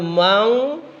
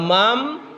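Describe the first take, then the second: First: The word ends with an ng sound. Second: The word ends with an m sound. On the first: "Jadi bukan mang" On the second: "bukan mam"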